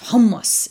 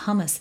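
First: It is said with strong, forceful energy. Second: It is said weakly, without force.

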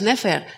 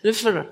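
First: The vowel is a full, clear e. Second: The vowel is a weak, reduced schwa. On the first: This is the conventional reading. The speaker calls it wrong. "no es Nefer" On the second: This is closer to the real pronunciation. The speaker calls it right. "es Nefer. ... Es como una schwa"

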